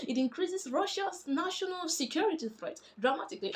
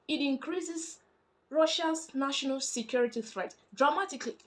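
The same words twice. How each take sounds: First: Higher, emphatic repeat stressing "dramatically". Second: Higher voice, set "dramatically" apart at the end; stress on dramatically. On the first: Shown as a demonstration. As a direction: drive the whole line up to underline "dramatically". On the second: Retold or imitated. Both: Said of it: "Emphasis on the word dramatically".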